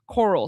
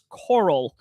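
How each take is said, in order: First: The word is swallowed in a southern accent. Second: The word is said clearly and fully. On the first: "My southern accent kind of swallows that word" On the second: "but it's coral"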